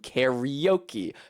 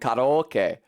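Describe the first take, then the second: First: Said with an Americanized English pronunciation. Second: Said with the original Japanese pronunciation. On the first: "corrupted into karaoke" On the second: "from karaoke"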